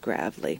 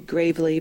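First: The name gets the southern pronunciation. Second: The name gets the common, non-southern pronunciation. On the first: The speaker calls it right. "it's a southern name, so it's Gravely" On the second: The speaker calls it wrong. "People want to say Gravely"

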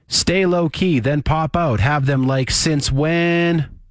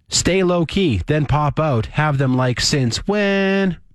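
First: It is read plainly, without added intonation. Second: It is read with added expressive intonation. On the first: "Just like I read it" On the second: "I'm putting that inflection on"

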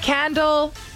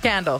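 First: The tune stays unfinished, as if more follows. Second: The tune ends as a complete word. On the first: "you said candle like there's a word after it" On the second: "That's why I reset it"

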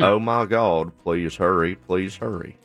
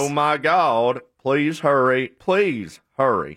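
First: It is said flatly, with little animation. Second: It is said with lively, animated enthusiasm.

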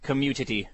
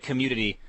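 No difference in how they are said.

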